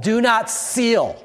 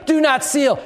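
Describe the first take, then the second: First: Said in the usual way. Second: Preached shout. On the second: Shown as a demonstration. Pastor repeating the verse to the church, shouted. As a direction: fire the command out at the room.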